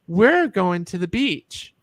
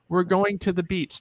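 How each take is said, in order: First: The pitch moves up and down throughout. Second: The pitch stays nearly level throughout. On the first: It sounds more feminine. "when we add inflection to that" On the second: It sounds masculine. "that's a very masculine way of saying it because it's very monotone"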